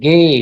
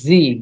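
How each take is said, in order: First: The letter name sounds like 'geh', with a hard g. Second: The letter name sounds like English 'gee'. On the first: The speaker calls it right. "গে, নট জি, গে" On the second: The speaker calls it wrong. "নট জি"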